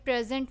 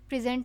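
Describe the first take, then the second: First: The stress is on the first syllable. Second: The stress is on the second syllable. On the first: It is a noun meaning a gift. "Start से हमने stress दिया" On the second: It is a verb meaning to display or show. "Pre के बाद stress का symbol है"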